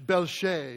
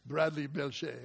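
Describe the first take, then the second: First: French style. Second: Mock French. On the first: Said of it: "it could be French". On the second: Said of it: "Doesn't that sound nice?". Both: Shown as a demonstration.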